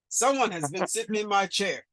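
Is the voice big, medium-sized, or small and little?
big. It is said in a big, deep voice. "in a great big voice"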